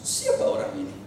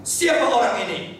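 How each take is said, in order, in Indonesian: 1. Diucapkan dengan nada ketus. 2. Diucapkan dengan suara marah. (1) "Bisa saya baca dengan nada ketus" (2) "Bisa saya baca dengan marah"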